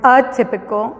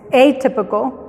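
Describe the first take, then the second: First: The first vowel is a short sound. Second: The first vowel is a long sound. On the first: The speaker calls it wrong. "no es atypical" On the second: The speaker calls it right. "es atypical"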